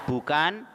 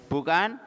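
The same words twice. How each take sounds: No difference in how they are said.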